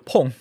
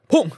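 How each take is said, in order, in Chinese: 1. “砰”说得很轻。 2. “砰”是大声喊出来的。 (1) "啊，不对" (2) "就是这种感觉"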